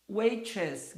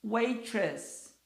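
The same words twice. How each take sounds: First: Waitress repeated; English word waitress. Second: Waitress with stress on WAI; English word waitress. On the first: (repetição de "Waitress") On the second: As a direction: model Waitress for the class. (pronúncia de "Waitress") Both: Shown as a demonstration. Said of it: "O T aqui tem som de R".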